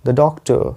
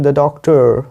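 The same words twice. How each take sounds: First: "doctor" ending "-tuh", no r; silent final r. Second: "doctor" with a curled American r. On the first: Teacher showing the British way, "doctor" without a final r. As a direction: drop the r at the end of "doctor". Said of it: "मैं आर नहीं pronounce कर रहा हूँ". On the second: Teacher contrasting accents, American rhotic "doctor". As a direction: say "doctor" the American way, tongue bent back. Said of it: "American में आप बोल सकते हैं". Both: Shown as a demonstration.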